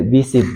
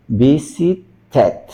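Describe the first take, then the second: First: Visited cut to two syllables, "visi-t", no vowel in the ending; wrong -ed demo. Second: Visited drawn out slowly, "vi-si-tet"; -ed as full syllable. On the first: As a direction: say "visit" with a bare final T for -ed. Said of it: "entonces no, no voy a decir". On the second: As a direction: slowly separate the syllables of "visited", sounding the last. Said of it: "Sino visited". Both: Shown as a demonstration.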